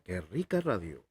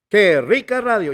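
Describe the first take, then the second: First: It is said in a soft, gentle tone. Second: It is said in a lively, energetic tone.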